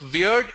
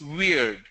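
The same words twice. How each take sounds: First: The vowel is short. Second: The vowel is long. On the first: The speaker calls it wrong. "It's not weird" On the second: The speaker calls it right. "And it's a long vowel sound"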